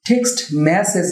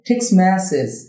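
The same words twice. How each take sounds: First: The t at the end of text is pronounced. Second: The t at the end of text is dropped. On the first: The speaker calls it wrong. "না হয়ে" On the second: The speaker calls it right. "হবে টেক্সট message"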